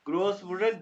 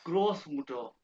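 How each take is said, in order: First: ग्रोस मुटर again with मुटर rising; ग्रोस मुटर, मुटर lifted and questioning; rising repeat. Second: ग्रोस मुटर with a falling close, teacher model; German word. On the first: (ग्रोस मुटर, मुटर पर उठती आवाज़) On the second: (ग्रोस मुटर German उच्चारण में) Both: Shown as a demonstration.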